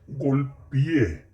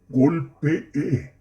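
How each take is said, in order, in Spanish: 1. Las dos e finales se unen. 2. Las dos e finales se pronuncian por separado. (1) "estos pretéritos están mal dichos" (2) "Lo correcto es"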